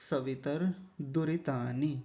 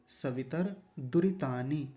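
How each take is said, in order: Both takes have the same delivery.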